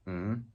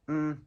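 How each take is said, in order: First: The pitch rises from mid to high. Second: The pitch stays high and level. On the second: "High and flat"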